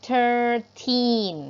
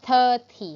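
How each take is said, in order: First: Put-on THIRTEEN in two loud, stretched syllables, long "teen"; long teen ending. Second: THIRTY loud, split in two, ending in a short "tee". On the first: Teacher contrasting thirteen with thirty for pupils, long ending. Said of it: "ออกเสียงยาว teen". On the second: Teacher contrasting thirty with thirteen for pupils, short ending. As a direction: punch THIRTY and cut its last vowel short. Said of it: "เราต้องอ่าน สามสิบ ว่า". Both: Shown as a demonstration.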